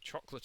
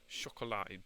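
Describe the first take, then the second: First: It is said with a plain English accent. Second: It is said with a French accent.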